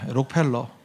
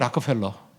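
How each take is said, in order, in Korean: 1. 이 이름은 한국식 발음으로 말해요. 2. 이 이름은 미국식 발음으로 말해요. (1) "한국이니까 록펠러" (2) "락펠러래요"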